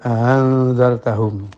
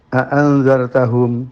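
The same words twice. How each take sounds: First: The second glottal stop is softened and eased. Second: Two full glottal stops come back to back. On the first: "hamzah kedua dibaca tashil" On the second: "ada dua hamzah a a, oh sulit ya"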